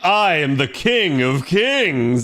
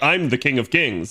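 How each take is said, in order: First: It is said in a grand, showy, proud way. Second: It is said in a plain, restrained, serious way. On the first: The character is full of self-admiring pride. "sounds flamboyant and like pompous" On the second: The character is simply stating a fact. "sounds serious"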